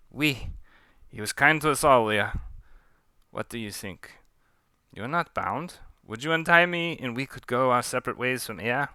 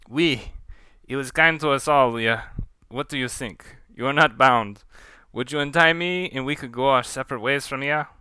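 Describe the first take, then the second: First: Put-on half-lost French accent, mild plea; slipping French accent. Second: Put-on firmer French accent, earnest plea. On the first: Pontou asking Leah to untie him, slipping French accent. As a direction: let the French accent slip away. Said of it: "What happened to my accent?". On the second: Pontou asking Leah to untie him, French accent. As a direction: appeal to your captor with a French accent. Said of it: "I'm gonna try that one more time".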